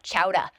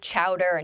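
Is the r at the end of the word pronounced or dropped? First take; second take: dropped; pronounced. First: The final r sound is dropped. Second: The final r sound is pronounced. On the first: This is how the word is said in a Boston accent. "not chowder. I thought you were supposed to say chowder" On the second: This is how a speaker without a Boston accent says it. "I keep noticing you say chowder"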